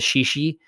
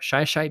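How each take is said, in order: First: Both syllables have an 'ee' vowel sound. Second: Both syllables have an 'eye' vowel sound. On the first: The speaker calls it wrong. "I've originally pronounced it as Shishi" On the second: The speaker calls it right. "somebody from Washington corrected me and said it's Shy Shy Beach"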